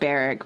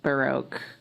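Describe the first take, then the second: First: The name sounds like the word barrack. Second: The name sounds like the word baroque. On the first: This is how the speaker always said it. The speaker calls it wrong. "I always said Barrack" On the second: This is how it is supposed to be said. The speaker calls it right. "I think it's supposed to sound like um, ba- Baroque"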